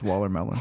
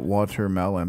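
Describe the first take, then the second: First: The word is said fast. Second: The word is said slowly.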